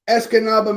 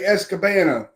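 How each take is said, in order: First: The third syllable begins with an n sound. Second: The third syllable begins with a b sound. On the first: The speaker calls it right. "I think it's Escanaba" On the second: The speaker calls it wrong. "I always pronounce it incorrectly and I say Escabana"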